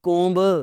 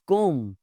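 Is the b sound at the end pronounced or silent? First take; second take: pronounced; silent. First: The final b sound is pronounced. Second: The final b sound is silent. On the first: The speaker calls it wrong. "It's not कोम्ब" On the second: The speaker calls it right. "It's कोम"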